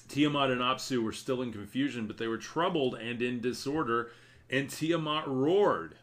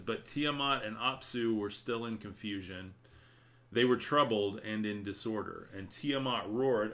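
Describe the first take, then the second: First: Dramatic reading. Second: Reading while fighting off a sneeze; holding back a sneeze. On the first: Acted. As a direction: read the verses with dramatic force. Rereading the passage with force. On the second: Real, not acted. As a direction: hold in a sneeze as you read. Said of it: "I'm trying not to sneeze".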